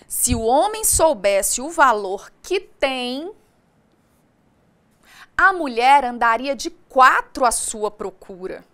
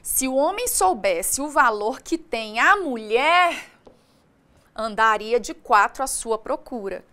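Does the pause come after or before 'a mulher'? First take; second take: before; after. First: The pause comes right before 'a mulher'. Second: The pause comes right after 'a mulher'. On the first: The man is the one who has value. "O homem tem valor" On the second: The woman is the one who has value. "se eu mudar a vírgula de lugar"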